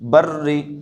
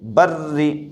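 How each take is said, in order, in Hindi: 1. R की आवाज़ हल्की और पतली है। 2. R की आवाज़ हल्की और पतली है।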